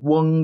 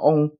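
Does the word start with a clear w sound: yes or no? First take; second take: yes; no. First: It starts with a clear w sound. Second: It starts without a w sound. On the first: "就是有一个W 的音是挺明显的" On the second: "他们会叫老ONG 老翁"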